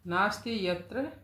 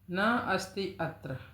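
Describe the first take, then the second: First: The words are joined into one run-together word. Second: The words are said as separate words.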